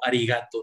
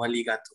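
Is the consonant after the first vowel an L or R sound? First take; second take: R; L. First: It is said with an R sound. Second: It is said with an L sound. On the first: The speaker calls it right. "Pensé que era con R como arigato" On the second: The speaker calls it wrong. "no aligato"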